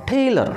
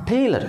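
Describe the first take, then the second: No difference in how they are said.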